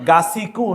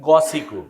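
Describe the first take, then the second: First: The first vowel is an open a sound. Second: The first vowel is a dark o sound. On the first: The speaker calls it wrong. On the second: The speaker calls it right.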